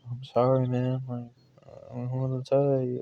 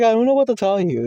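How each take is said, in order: First: Soft, sheepish mumble; retold apology with head down, hushed; ashamed apology. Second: High-pitched, quick protest; retold helpless answer, pitched way up; exasperated retelling. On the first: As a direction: quietly own up, embarrassed. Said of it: "I'm ashamed". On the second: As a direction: throw it out high and fast. Retells his answer, louder.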